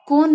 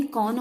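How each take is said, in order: First: कौन said "kon", with a pure O; mispronounced vowel. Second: Said in the usual way. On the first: Shown as a demonstration. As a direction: round कौन into a plain O. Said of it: "नहीं कौन होता है". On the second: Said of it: "कौन होता है".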